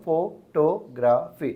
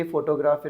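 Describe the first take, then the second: First: photography very slow, one syllable at a time; broken into syllables. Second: Said in the usual way. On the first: Shown as a demonstration. Teacher finding the stressed syllable, photography slowly broken up. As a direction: draw out and separate each syllable of photography. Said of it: "syllabus में तोड़ने की आदत रख लो". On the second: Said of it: "फो के ऊपर ही first stress".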